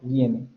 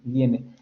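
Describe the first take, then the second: First: The i glides quickly into the next vowel. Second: The i glides quickly into the next vowel.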